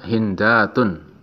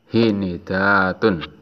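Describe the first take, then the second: First: The n is followed by no vowel. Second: The n is followed by an i vowel. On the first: "nunnya disukun" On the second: "huruf nunnya dikasroh mengikuti haknya"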